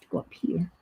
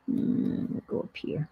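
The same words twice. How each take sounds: First: Said in the usual way. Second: "go up here" fully whispered. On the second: Real, not acted. Deciding where the piece goes, whispered to herself. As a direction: whisper it to yourself.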